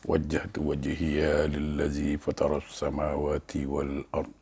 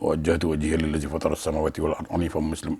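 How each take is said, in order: First: It is recited slowly and clearly. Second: It is recited very fast.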